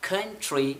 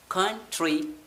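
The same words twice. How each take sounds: First: Said in the usual way. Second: कंट्री with breathy kh onset; aspirated k. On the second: Shown as a demonstration. Teacher contrasting plain and aspirated कंट्री. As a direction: say कंट्री with a puff on k. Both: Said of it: "आपने सी के sound को change किया है".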